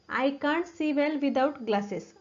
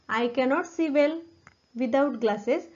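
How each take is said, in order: First: The negative is contracted into one short syllable. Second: The negative is said in full, two syllables. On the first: The speaker calls it right. "त्याऐवजी ... असं म्हणा" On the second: The speaker calls it wrong. "कॅनॉटचा वापर"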